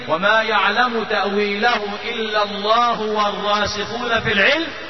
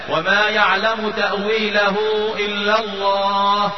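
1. يواصل القارئ بعد 'الله' دون توقف. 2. يتوقف القارئ مباشرة بعد كلمة 'الله'. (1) "وتقف وتقول يقولون" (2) "وقف وتستأنف"

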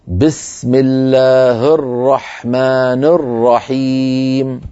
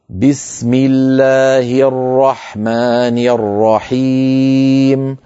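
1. أصوات الكسرة مختزلة، تكاد تُبتلع. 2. أصوات الكسرة كاملة وواضحة. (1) "سأنطقها خطأ" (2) "الصواب"

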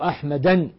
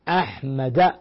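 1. تنتهي الكلمة بصوت نون مضاف. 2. تنتهي الكلمة على حركة دون نون. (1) "فلا يقال في أحمد مثلا" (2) "وإنما"

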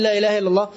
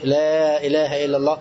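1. تُقال العبارة بسرعة وعجلة. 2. تُقال العبارة ببطء مع مدّ الحروف. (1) "وهو يسرع فيها" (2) "مدها يا شيخ مدها. قولها بالراحة"

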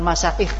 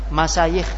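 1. Konsonan tengahnya hamzah. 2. Konsonan tengahnya bunyi y. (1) "bukan masaikh" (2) "masayikh bukan masaikh"

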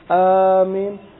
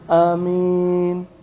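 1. Vokal pertama diucapkan panjang. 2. Vokal pertama dijaga tetap pendek. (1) "dengan dipanjangkan"

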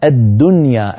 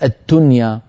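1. الصوت د مجهور. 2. الصوت ت مهموس. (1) "الدال مجهورة يا أخي" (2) "ولا تقول التنيا، التنيا صار كأنها تاء"

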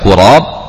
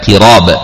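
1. Vokal pertama adalah bunyi 'u' bulat. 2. Vokal pertama adalah bunyi 'i' depan. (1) "bisa dibaca qurab" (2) "bisa dibaca qirab dengan kasrah"

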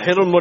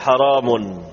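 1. Dimulai dengan hi, tidak ada vokal setelah r. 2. Dimulai dengan ha, ada vokal setelah r. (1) "ha'anya kasrah, ra'anya sukun" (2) "Penduduk Hijaz, Basrah, Syam membaca seperti kita"

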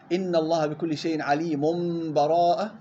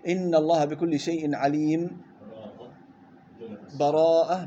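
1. الكلمة الأخيرة تتصل مباشرة بدون أي فاصل. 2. سكتة قصيرة بدون تنفس قبل الكلمة الأخيرة. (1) "الوصل بدون بسملة" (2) "بدون نفس، سكت"

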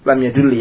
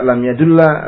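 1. Kata kerja ini berakhir dengan vokal i. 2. Kata kerja ini berakhir dengan vokal a.

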